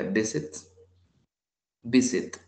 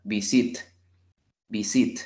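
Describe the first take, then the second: First: Visit stressed on VI; stress on first syllable. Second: Visit wrongly stressed on SIT; viSIT, weight thrown onto the end; stress on last syllable. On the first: Teacher giving learners the usual pronunciation, first-syllable stress. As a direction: VI strong, sit unstressed. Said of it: "siempre se pronuncia". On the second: Teacher showing learners the wrong version, final-syllable stress. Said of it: "si lo tuviera al final". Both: Shown as a demonstration.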